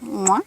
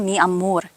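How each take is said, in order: First: The syllables are squeezed into one short 'moi'. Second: Every syllable of the phrase is pronounced clearly. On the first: "moi 이런 느낌으로 좀 가져가신 것 같아요" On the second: "원래 발음은 mi amor"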